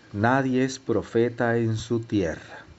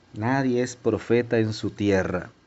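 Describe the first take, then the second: The two takes are said the same way.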